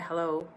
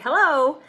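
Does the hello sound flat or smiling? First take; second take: flat; smiling. First: The greeting sounds flat and unsmiling. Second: The greeting sounds warm and smiling. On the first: The speaker seems uninterested in the call. The speaker calls it wrong. "with a no smile" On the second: The speaker is friendly and glad to talk. The speaker calls it right. "with a smile"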